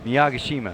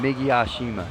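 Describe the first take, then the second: First: The name begins with a longer 'Miyag' sound. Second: The name begins with a short 'Mig' sound. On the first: The speaker calls it right. "There you go" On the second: The speaker calls it wrong. "I've been saying it wrong"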